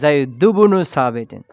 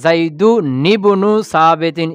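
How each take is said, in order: First: No n sound; the first name runs into bnu. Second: An n sound links the first name to ibnu. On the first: The speaker calls it right. "এখানে যে নুনটা পড়ে যাবে" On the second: The speaker calls it wrong. "মিলিয়ে পড়লে কি হচ্ছে?"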